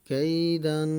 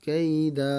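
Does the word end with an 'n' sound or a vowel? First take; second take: n sound; vowel. First: The word ends with a nasal '-an' ending. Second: The word ends on a long 'a' vowel. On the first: The reading continues without stopping. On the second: The reader stops on this word.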